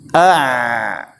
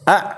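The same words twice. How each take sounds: First: The final sound flows on for a full beat. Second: The final sound stops completely with no flow. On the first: "ini satu harokat dan ini bukan sifat ain" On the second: "ini tidak ada tawassutnya. Ini disyiddah namanya"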